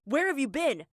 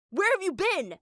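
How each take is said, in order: First: Mad dad yelling a question; first angry demand, already raised; angry shout. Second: Much higher and louder repeated yell; screaming. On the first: Furious dad demanding where his family went, shouting. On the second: Dad screaming the question again at his family. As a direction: repeat it, now screaming at full force. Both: Retold or imitated. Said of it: "he was so mad he screamed".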